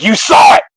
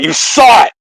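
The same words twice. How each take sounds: First: High excited exclamation; excited call-out. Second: Higher, louder excited cry; excited call-out. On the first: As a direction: call it out, thrilled. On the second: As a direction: shout it out in triumph. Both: Retold or imitated. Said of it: "he calls him out".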